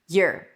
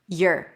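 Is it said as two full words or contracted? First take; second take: contracted; contracted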